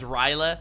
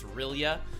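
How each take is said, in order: First: It ends in an 'ah' sound, like 'Ryla'. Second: It ends in a 'yeh' sound, like 'R'lyeh'. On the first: The speaker calls it wrong. "I always pronounce that as Ryla" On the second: The speaker calls it right. "he's totally right. It's R'lyeh"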